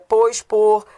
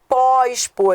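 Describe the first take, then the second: First: The prefix pos is unstressed and reduced. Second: The prefix pos is stressed and open. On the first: The speaker calls it right. "já que é átono" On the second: The speaker calls it wrong. "não é"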